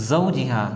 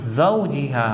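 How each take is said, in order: No difference in how they are said.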